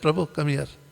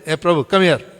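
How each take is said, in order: First: It is said in a soft, calm voice. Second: It is shouted loudly and forcefully.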